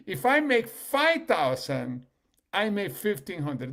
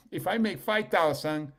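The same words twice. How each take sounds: First: Slow, louder and higher on "I"; slow emphatic restatement. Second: Said in the usual way. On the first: Shown as a demonstration. To the audience, mocking the reasoning slowly and loudly. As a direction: stretch "If I make five thousand" out loud and slow. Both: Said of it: "Think about the reasoning".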